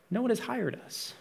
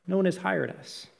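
First: A high, soft, pleading "no one has hired us"; soft plea. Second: Said in the usual way. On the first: Shown as a demonstration. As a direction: say it softly and a little higher, like the workers' plea.

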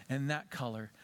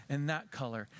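Both takes have the same delivery.

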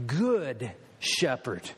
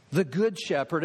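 First: Good drawn out slowly and low; stress on good. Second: Said in the usual way. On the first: Acted. Preacher lingering on good before the congregation. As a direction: lean slowly on the word good.

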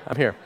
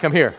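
First: Said in the usual way. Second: Louder, still-agitated I'm here; a half-calmed dad still too loud; still worked up. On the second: Shown as a demonstration. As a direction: say it still riding the yelling. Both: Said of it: "I'm back".

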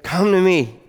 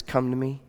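First: A raised, ringing invitation; ringing call. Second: A quiet, close invitation; soft invitation. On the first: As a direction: lift Come to me like a call across the crowd. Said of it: "you hear the voice of Jesus say". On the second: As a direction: drop Come to me to a hushed, intimate offer. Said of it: "Jesus Christ, the Son of God, says". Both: Acted.

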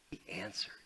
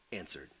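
First: Soft whisper on answered. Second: Said in the usual way. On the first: Shown as a demonstration. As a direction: breathe the word answered.

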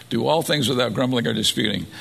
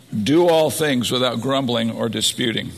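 First: "all" stressed, falling finish; repeating the verse, "all" stressed; repeated for emphasis. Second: Verse read with a lift on "Do"; "Do" opens the verse with weight, reading it as a command; read out as scripture. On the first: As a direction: lean on "all" in "Do all things", then let it fall. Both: Shown as a demonstration.

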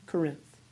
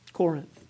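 First: "Corinth" stressed on the last syllable, co-RINTH; stress on second syllable. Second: "Corinth" stressed on the first syllable, COR-inth. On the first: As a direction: say "Corinth" with a weak first vowel and stressed RINTH. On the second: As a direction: say "Corinth" with a full COR and weak second vowel. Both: Real, not acted. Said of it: "put that emphasis on the wrong syllable".

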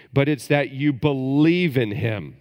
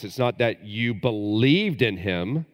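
First: Believe lifted higher and louder, present tense; stress on believe. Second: Said in the usual way. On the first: Shown as a demonstration. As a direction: lean hard on the word believe.

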